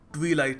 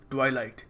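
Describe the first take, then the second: First: The first vowel sounds like 'ee'. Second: The first vowel sounds like 'eye'. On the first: The speaker calls it wrong. "ये ट्वीलाइट नहीं है" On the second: The speaker calls it right. "It is ट्वाइलाइट"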